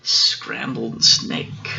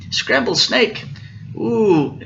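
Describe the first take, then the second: First: Slow, measured food reveal; unhurried storybook punchline; deliberate reveal. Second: High, startled snake question; pitched-up acted alarm; alarmed echo. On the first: Acted. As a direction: draw the words out for the listener. Mouse names the favorite food. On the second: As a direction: echo it in storybook dismay.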